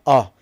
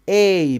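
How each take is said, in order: First: The vowel is reduced to a schwa. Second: The vowel is full and clear. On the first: "weak forms" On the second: "strong forms"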